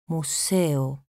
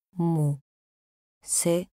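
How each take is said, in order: First: Said in the usual way. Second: "Museo" split as Mu, se, o; syllable by syllable. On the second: Shown as a demonstration. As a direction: say "Museo" with a pause after each syllable. ("Museo" separado en sílabas: mu, se, o) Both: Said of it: "Separación de sílabas".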